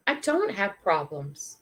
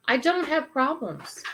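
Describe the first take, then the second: First: Slow, measured realization; sober realization. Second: Higher, emphatic stress on "don't"; emphatic restatement. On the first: Storyteller realizing her own troubles are small, sober and slow. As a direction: let it land slowly. Realization retold, contrasted with that dude. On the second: Storyteller driving home her realization after comparing herself, emphatic. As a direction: lift "don't" high, falling away on "problems". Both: Retold or imitated.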